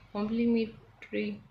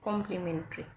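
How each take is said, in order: First: Complementary said slowly, each syllable drawn out; slow careful correction. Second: Said in the usual way. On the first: Shown as a demonstration. (complementary को धीरे-धीरे, साफ़ साफ़ बोलें) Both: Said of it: "no, sorry".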